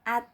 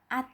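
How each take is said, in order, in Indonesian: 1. Vokalnya terang dan terbuka, seperti a. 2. Vokalnya terang dan terbuka, seperti a.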